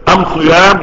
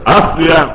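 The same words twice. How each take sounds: First: أم صيام with am- instead of al-, loud; Himyar dialect article. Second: Said in the usual way. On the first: Shown as a demonstration. Teacher decodes the dialect, am- heard in أم صيام. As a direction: loudly say "am-siyam" for as-siyam in أم صيام. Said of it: "نطق الألف لام ألف ميم". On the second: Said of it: "يعني إيه؟".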